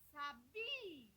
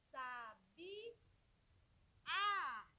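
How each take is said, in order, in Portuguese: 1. A tônica está na segunda sílaba. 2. A tônica está na última sílaba. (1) "Paroxítona" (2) "Chamei o A com mais força"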